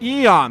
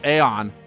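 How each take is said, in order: First: The word begins with an 'ee' sound, like eon. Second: The word begins with an 'ay' sound. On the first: This is how the game pronounces it. "That's how they pronounce it" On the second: This is how the speaker usually pronounces it. "I always pronounce it as Aeon. Because, you know, A and E"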